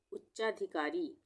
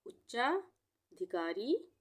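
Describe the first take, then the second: First: Said in the usual way. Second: उच्चाधिकारी stretched very slowly so the double च and every syllable is heard; teacher dictating उच्चाधिकारी slowly; slow broken reading. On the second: Shown as a demonstration. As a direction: sound it out for beginners. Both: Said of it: "तोड़ के पढ़ना चाहें तो".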